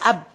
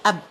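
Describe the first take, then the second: Both takes have the same delivery.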